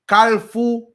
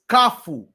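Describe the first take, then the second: First: An L sound comes before the F. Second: No L sound comes before the F. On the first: The speaker calls it wrong. "people pronouncing kafu as kalfu, K A L F O U" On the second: The speaker calls it right. "I corrected that. I said it's kafu"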